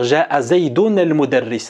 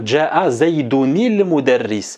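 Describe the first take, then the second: First: Zaydun ends without an added vowel before al. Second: Zaydun links to the next word with an i-vowel. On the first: The speaker calls it wrong. "Il ne faut pas lire" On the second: The speaker calls it right. "on va lire automatiquement Ja'a Zaydunil Mudarris"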